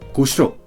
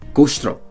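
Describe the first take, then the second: First: European accent, said fast with vowels dropped. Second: European accent, said fast with vowels dropped.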